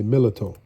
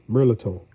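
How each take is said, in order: First: "mirliton" said MIH-li-toh, r dropped and the final o short; the Louisiana home-kitchen "mirliton" set against the textbook one; local Louisiana pronunciation. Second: "Mirliton" said the standard way, MER-li-tone with a clear r; the dictionary "Mirliton" before the local version; textbook pronunciation. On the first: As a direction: say "mirliton" the way it's said down here, no r and a clipped o at the end. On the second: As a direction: say "Mirliton" by the book, r sounded and ending in a long o-glide.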